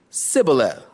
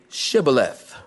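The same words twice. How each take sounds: First: "Sibboleth" with a plain s, no sh; mispronounced Sibboleth. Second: "Shibboleth" with a clear sh. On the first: Preacher mimicking the Ephraimite who cannot say sh, plain s. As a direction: say "Sibboleth" with a hissing s instead of sh. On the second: Preacher showing the password the Gileadites demanded, a clean sh. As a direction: say "Shibboleth" starting with a full sh sound. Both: Shown as a demonstration. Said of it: "for he could not pronounce it right".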